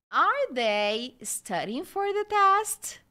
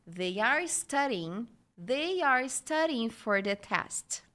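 First: Slow, higher, louder "Are they studying for the test?"; question intonation. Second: Slow model of "They are studying for the test"; statement intonation. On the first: Teacher repeats the question for learners, slow with a high ending. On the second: Teacher repeats the example sentences for learners, slow even statement. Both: Shown as a demonstration. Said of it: "Vou falar mais uma vez".

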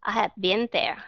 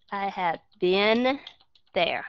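First: "been" short as "bin" in "I have been there"; American been. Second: "I have been there" slowly, with a pause before "there"; slow model sentence. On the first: Teacher modelling the sentence for students. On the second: Teacher slowly repeating the model sentence. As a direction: break it up slowly so students copy it. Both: Shown as a demonstration. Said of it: "Chúng ta đọc là been".

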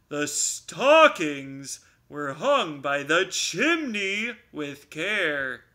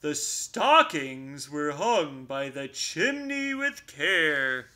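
First: Louder repeat. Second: Poem recital. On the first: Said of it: "Bear repeated more loudly". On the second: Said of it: "Bear continued". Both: Acted.

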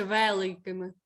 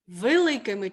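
First: «великими» with a clear Е in the first syllable. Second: «Великими» with И in the first syllable; И-like first vowel. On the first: Teacher offers pupil a spelling choice, clear Е in «великими». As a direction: sound a distinct Е at the start of «великими». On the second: Teacher offers pupil a spelling choice, И-like first vowel in «Великими». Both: Shown as a demonstration. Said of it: "І тут чітко чути звук Е".

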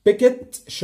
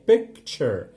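First: Picture with the middle sound dropped, rising high and loud; mock-wrong picture, middle swallowed; النطق الغلط لكلمة picture; wrong pronunciation. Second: Picture with the middle k and ch clearly kept; slow correct take of picture, every sound kept; النطق الصح لكلمة picture; correct pronunciation. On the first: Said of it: "مش بنعمل دروب في النص". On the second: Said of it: "لا هي picture". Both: Shown as a demonstration.

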